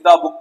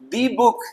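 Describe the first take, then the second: First: 'The' is said with a short 'thuh' vowel. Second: 'The' is said with a long 'thee' vowel. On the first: It is an ordinary book. "तो यहाँ पे तो simply द book पढ़ेंगे" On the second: It is one specific book. "तो द नहीं दी"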